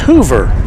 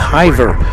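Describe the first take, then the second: First: The first vowel sounds like 'oo'. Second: The first vowel sounds like 'eye'. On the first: The speaker calls it right. "It's Hoover" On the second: The speaker calls it wrong. "I was going with Hiver"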